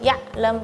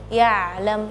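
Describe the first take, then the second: First: The ain sound is jumpy and abrupt. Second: The ain sound is smooth and soft. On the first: The speaker calls it wrong. "tadi seperti ngeloncat gitu" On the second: The speaker calls it right. "harusnya ya'lam, yang lebih soft lagi"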